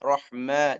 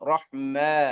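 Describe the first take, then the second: First: The final vowel leans only slightly toward e. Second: The final vowel leans only slightly toward e.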